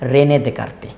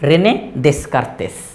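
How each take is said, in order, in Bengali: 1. উপাধির s ধ্বনিগুলো নীরব। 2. উপাধির s ধ্বনিগুলো উচ্চারিত হয়। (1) "কিন্তু আসলে উচ্চারণটা কি?" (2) "ইংরেজি শব্দটা দেখে কেমন যেন উচ্চারণ এরকম মনে হয়"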